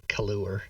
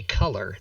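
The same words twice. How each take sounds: First: Color said as "cuh-loo-er"; color with an "oo-er" ending; spelling pronunciation. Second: Said in the usual way. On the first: Shown as a demonstration. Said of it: "They just spell it color". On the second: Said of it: "They say color".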